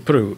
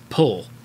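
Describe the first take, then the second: First: It is said as two Japanese syllables, puru. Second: It is said as one English syllable, pull. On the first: "If you're speaking Japanese, ... you can say puru" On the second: "In English, if you're speaking English, that's how you say it"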